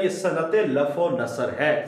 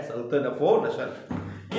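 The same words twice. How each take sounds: First: Said in the usual way. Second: सनत लफ व नसर spelled out very slowly, each word apart and softer; slow dictation. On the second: Shown as a demonstration. Teacher repeating the term for students to write down, very slow and soft.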